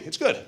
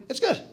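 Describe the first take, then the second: First: Said in the usual way. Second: "good" lifted high with a rising, doubtful tune; high rising it's good. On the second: Shown as a demonstration. Speaker grudgingly rating the movie ending, rising tune on "good". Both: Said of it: "Not great".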